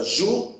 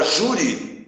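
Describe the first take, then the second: First: "juri" with a held "ju", long pause, then "ri"; split into syllables. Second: Said in the usual way. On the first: Shown as a demonstration. Teacher dividing the word for students, syllable by syllable. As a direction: pull "juri" apart into two separate syllables. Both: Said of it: "separarmos as sílabas".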